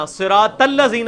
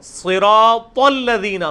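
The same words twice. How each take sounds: First: صراط الذین with thin "tal" and a z; mispronounced. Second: صراط الذین very slow with heavy s and thick "tol"; correct pronunciation. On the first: Teacher shows what not to say, mispronounced. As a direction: lighten صراط الذین into "siraat-allazeena". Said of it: "نہیں ہوگا". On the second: Teacher applies the heavy letter to the verse, correct pronunciation. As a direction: stretch صراط الذین, rounding Saad and Taa. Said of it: "صراط الذین نہیں ہوگا". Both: Shown as a demonstration.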